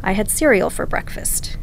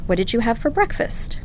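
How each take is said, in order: First: "I had cereal for breakfast" with the voice falling on "breakfast"; falling statement tune. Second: "What did you have for breakfast?" with the voice rising on "breakfast"; rising question tune. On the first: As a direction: let "breakfast" drop down like a plain statement. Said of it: "my voice goes down at the end". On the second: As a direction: lift the end of "breakfast?" like a real question. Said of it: "your voice goes up at the end". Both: Shown as a demonstration.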